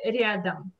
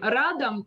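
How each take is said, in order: First: The r sound is soft. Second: The r sound is hard. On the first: The speaker calls it right. "Как мы говорим, радом или рядом?" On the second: The speaker calls it wrong. "Как мы говорим, радом или рядом?"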